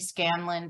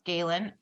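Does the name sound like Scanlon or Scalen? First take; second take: Scanlon; Scalen. First: The name has an n after the first vowel. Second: The name has no n after the first vowel. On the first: The speaker calls it wrong. "my brain kept telling me Scanlon" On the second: The speaker calls it right. "but it's Scalen"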